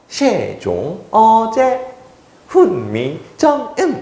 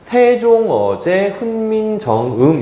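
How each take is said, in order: First: It is read with old pronunciation and pitch tones. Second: It is read with plain modern pronunciation. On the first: "사성법까지 적용하면요" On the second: "이렇게 읽으면 돼요"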